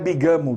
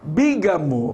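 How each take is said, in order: First: The stress falls on the second syllable. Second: The stress falls on the first syllable. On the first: The speaker calls it wrong. "não é bigamo" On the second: The speaker calls it right. "A sílaba mais forte é a antepenúltima"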